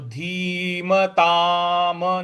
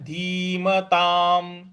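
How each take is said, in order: First: The final m is followed by a vowel. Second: The word ends on a bare m sound. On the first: The speaker calls it wrong. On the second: The speaker calls it right.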